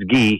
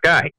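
First: The name is said with a French pronunciation. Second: The name is said with an English pronunciation. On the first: The speaker calls it right. "but it's Guy. He's French" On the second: The speaker calls it wrong. "It's not Guy"

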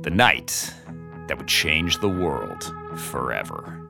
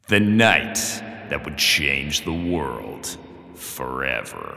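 First: It is said in a plain, ordinary way. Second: It is said in a dramatic way.

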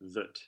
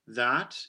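First: The vowel is reduced to a schwa. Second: The vowel is full and clear.

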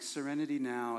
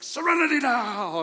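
First: It is said calmly and softly, like a breath. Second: It is said angrily, as a tense shout. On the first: The speaker is genuinely trying to relax. "taking deep breaths and like" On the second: The speaker is furious despite the calming words. "he's walking around angry"

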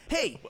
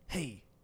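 First: It is said in a sportscaster voice. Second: It is said in a radio host voice.

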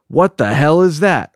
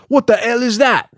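First: It is said in the speaker's ordinary accent. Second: It is said in a put-on Welsh accent.

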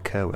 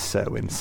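First: The name begins with a K sound. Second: The name begins with an S sound. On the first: "Let's go with Kerwin" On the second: "I was just thinking because Cersei is spelt the same way"

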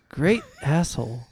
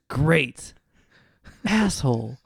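First: There is no pause after 'great'. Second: There is a pause after 'great'.

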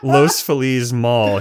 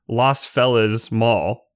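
First: Los Feliz is pronounced the Spanish way. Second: Los Feliz is pronounced the anglicized English way. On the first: The speaker calls it right. "instead of saying" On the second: The speaker calls it wrong. "he says"

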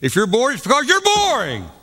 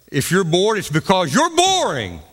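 First: It is said with stronger, louder emphasis. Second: It is said with some emphasis.

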